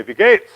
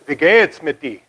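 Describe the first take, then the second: First: Wie geht's clipped short, louder, rising at the end; shortened German greeting. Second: Wie geht's mit dir said as a Bavarian German greeting; full German greeting, Wie geht's mit dir, spoken natively; German greeting, full form. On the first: Wie geht's, showing how locals shortened the greeting, louder with a rise. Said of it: "to shorten that, people would say". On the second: Wie geht's mit dir, greeting the audience in Bavarian German, native pronunciation. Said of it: "I was gonna greet you with, uh, German greeting". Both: Shown as a demonstration.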